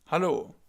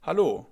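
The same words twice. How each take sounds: First: Hallo again, slower, for the learner to copy; German Hallo repeated. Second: Hallo said the German way, open a. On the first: Teacher repeating Hallo for students to echo, clear German. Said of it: "Like hello in English". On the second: Teacher modelling Hallo for learners, crisp German. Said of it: "you can say, for example". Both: Shown as a demonstration.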